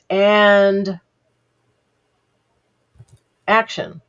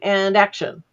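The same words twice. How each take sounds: First: There is a long pause before 'action'. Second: There is no pause before 'action'.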